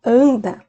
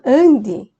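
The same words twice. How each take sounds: First: "anda" con a final; anda form. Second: "ande" ending in e, slightly louder; "ande" con e final; ande form. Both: Shown as a demonstration.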